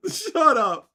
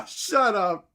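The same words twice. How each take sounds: First: Loud, high "shut up", laugh fading; delighted disbelief. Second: Loud, high "shut up" through a laugh; laughing disbelief. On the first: Still reacting to the flat earth globe error, loud and high. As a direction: repeat it, still amazed. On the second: Reacting to the flat earth society's globe joke, loud laughing. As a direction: burst out in delighted disbelief. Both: Real, not acted.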